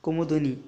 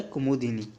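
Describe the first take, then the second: First: कुमुदिनी with u in the third syllable; incorrect form. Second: कुमुदिनी with i in the third syllable; corrected form. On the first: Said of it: "ये होता है कुमुदिनी". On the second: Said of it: "ये होता है". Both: Shown as a demonstration.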